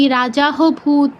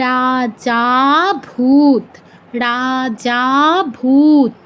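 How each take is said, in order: First: "রাজা হো ভূত" with an added ho syllable; wrong reading with হ. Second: "রাজা ভূত" with যা held extra long; pluta pronunciation. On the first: Teacher showing the forbidden reading, রাজা হো ভূত with audible h. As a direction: insert a spoken ho between "রাজা" and "ভূত". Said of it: "এরকম কেউ বলবো না". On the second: Teacher modelling the correct reading, slow রাজা ভূত with stretched যা. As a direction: draw out the second syllable of "রাজা", then a long "ভূত". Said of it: "কীরকম হবে উচ্চারণটা?". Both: Shown as a demonstration.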